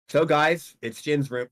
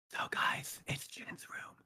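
First: It is said in a normal voice. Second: It is said in a whisper.

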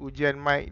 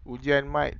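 First: The voice has vocal clarity processing applied. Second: The voice has no vocal clarity processing. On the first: "dengan vocal clarity" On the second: "tanpa vocal clarity"

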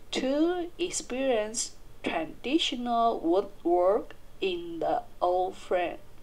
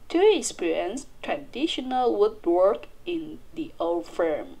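First: The sentence is spoken slowly. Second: The sentence is spoken fast.

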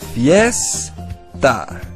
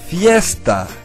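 First: The word is said slowly, broken into parts. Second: The word is said smoothly at normal speed. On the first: "Now let's say it together little by little" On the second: "Now let's say it three times the regular way"

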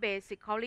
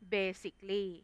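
First: The 'al' syllable is pronounced in full. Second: The 'al' syllable is silent. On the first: The speaker calls it wrong. "แต่ไม่อ่านว่า" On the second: The speaker calls it right. "อ่านว่า"

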